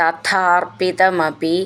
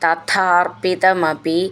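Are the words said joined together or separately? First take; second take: joined; joined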